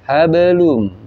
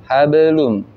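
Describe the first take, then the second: No difference in how they are said.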